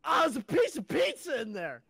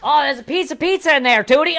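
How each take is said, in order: First: High, loud grossed-out pizza find; really disgusted. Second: Higher, louder squeaky pizza line; helium voice. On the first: Retold or imitated. Retelling the friend finding old pizza, disgusted. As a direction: sound truly grossed out. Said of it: "like, a really disgusted". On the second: Shown as a demonstration. Second try at the helium pizza voice, squeaky. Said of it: "let me try one more time".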